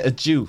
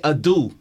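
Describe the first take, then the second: First: The middle consonant is a J sound. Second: The middle consonant is a plain D sound. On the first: The speaker calls it wrong. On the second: The speaker calls it right. "you're meant to say a do"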